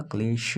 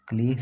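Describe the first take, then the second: First: क्लेश ending in sh, said slowly; क्लेश with a final sh, not s; correct Hindi pronunciation. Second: क्लेश ending in a plain s sound; क्लेश said with a dental s at the end; क्लेश with a final s, not sh; wrong Hindi pronunciation. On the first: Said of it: "क्लेश होता है". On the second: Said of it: "क्लेश स नहीं होता". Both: Shown as a demonstration.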